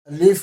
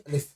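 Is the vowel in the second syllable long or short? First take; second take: long; short. First: The second syllable has a long vowel. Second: The second syllable has a short vowel. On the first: The speaker calls it wrong. "अलिफ नहीं" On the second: The speaker calls it right. "लाम हरसी फा, लाम दीर्घी नहीं"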